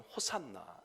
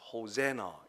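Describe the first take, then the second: First: No syllable is stressed; it is said evenly. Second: The stress is on the middle syllable. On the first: "우리는 그냥 쉽게 하면 호산나 이렇게 얘기합니다" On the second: "중간 음에다가 액센트를 주어서"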